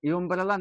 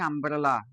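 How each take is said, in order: First: It begins with a 'you' sound. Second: It begins with a plain 'uh' vowel. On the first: The speaker calls it wrong. "Your ইউমব্রেলা" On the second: The speaker calls it right. "আমব্রেলা, তাই না?"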